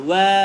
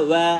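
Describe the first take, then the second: Both takes have the same delivery.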